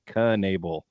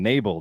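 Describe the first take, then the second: First: The name starts with a K sound before N. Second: The name starts with an N sound, K silent. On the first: The speaker calls it right. "got it right after that" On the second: The speaker calls it wrong. "he was leaving the K silent"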